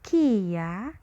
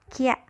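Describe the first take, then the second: First: It is said as two syllables, ki and ya. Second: It is said as one syllable, kya. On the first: "yang kiri dibaca kia" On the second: "Kia i-nya hilang ya. Kia dia menjadi senyap"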